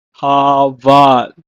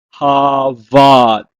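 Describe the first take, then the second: First: Harvard repeated loud and slow, havad; Hebrew word. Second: Harvard said loud and slow with a falling tune, hava; Hebrew word. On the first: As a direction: repeat Harvard clearly for learners to copy. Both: Shown as a demonstration. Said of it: "the first word is to perish".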